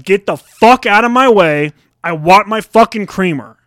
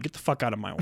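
First: Loud, slow angry demand; pissed off. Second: Low, very soft mock grumble; grumbled aside. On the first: Acted. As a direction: re-enact the confrontation, hitting it hard and high. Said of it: "And I was pissed". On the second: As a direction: mutter it low under your breath. Muttered acted grumble at kids.

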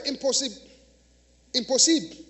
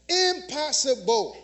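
First: Impossible said the French way, nasal im and no final -ble; French or Creole "impossible", ending "posib"; French pronunciation. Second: Said in the usual way. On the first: Shown as a demonstration. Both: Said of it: "In French or in Creole".

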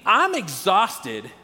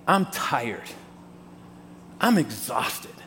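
First: Spoken very slowly, "I'm exhausted" stretched out; slowly stated. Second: Low, quiet, drained voice; worn-out sigh. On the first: Shown as a demonstration. Pastor naming the universal feeling to the congregation, very slowly. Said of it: "is a universal feeling". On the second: Pretend. Someone asked how they're doing, answering in a lower, quieter, worn-out voice. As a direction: let the words sag with tiredness. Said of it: "our response is".

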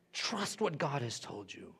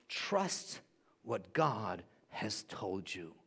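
First: Said in the usual way. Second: Slow, much softer, lower and calm; slow soft assurance. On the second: Shown as a demonstration. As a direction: let it sink in gently, slowly. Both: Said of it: "repeated for emphasis".

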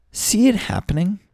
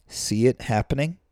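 First: Excited high repeat. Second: Said in the usual way. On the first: Real, not acted. Repeats the phrase to the audience.

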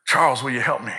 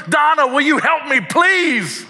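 First: Earnest ask. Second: Much higher, louder pleading cry of a name; desperate plea. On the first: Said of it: "he looks and he says". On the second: God begging Donna for help, much higher and louder. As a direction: call her by name, begging. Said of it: "he's like". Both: Retold or imitated.

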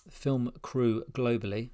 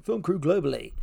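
First: Said in the usual way. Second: Higher-pitched MC announcer call. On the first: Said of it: "That's a bit tough to say". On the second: Real, not acted. Host retrying a tough phrase, in an MC voice. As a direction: belt it out like an MC introducing an act. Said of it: "say it in an M C voice".

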